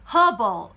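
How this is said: It is said in a British accent. "영국 영어에서는요"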